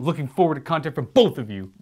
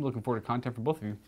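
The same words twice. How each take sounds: First: It is said loudly with excitement. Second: It is said in a flat reading tone.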